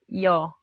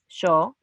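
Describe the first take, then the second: First: The y is said the other Latin American way. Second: The y is said the Argentine way. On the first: "in the all over the co- other countries, they said yo" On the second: "We said yo, like with different sound"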